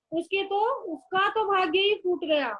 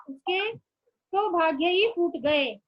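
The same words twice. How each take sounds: First: Said in the usual way. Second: गए said slowly and carefully as the plural, word by word; slow correct form. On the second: Shown as a demonstration. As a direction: spell out फूट गए at a slow dictation pace. (धीरे-धीरे, 'फूट गए' पर ज़ोर देकर) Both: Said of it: "ये भी बहुवचन में आएगा".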